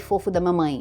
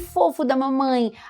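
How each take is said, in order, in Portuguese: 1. É dito em um tom plano e uniforme. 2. É dito com uma entonação animada e variada. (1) "num tom normal" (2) "eu dou entonação em algumas, algumas palavras"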